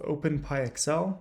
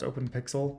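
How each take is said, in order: First: The middle is said as 'pie excel'. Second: The middle is said as 'pixel'. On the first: "called OpenPyExcel" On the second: "I've also heard it pronounced OpenPixel"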